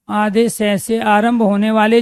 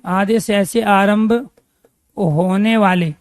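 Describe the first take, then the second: First: Said in the usual way. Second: Drawn out, each word spaced for writing; slow, deliberate teacher dictation; dictating slowly to the class. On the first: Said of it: "same phrase at normal speed". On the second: Shown as a demonstration. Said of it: "teacher repeats dictation slowly".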